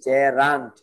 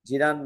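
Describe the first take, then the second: First: The first vowel sounds like 'e' in bed. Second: The first vowel sounds like 'ee' in see. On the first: The speaker calls it right. "এই উচ্চারণ শুদ্ধ" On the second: The speaker calls it wrong. "জিরান না"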